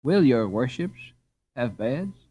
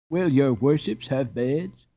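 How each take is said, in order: First: Said in the usual way. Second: Slow, sing-song mockery of the host; mocking. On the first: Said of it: "Softly rubbing his hands". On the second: A narrator's reading. Boy mocking the innkeeper's fawning question, slow and mocking. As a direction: drag out will as a tease. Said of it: "mocked Karl".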